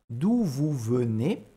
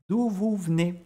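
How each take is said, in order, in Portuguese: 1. A primeira vogal de venez é pronunciada por completo. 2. A primeira vogal de venez é omitida. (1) "ao invés de falar" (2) "A gente vai comer esse E"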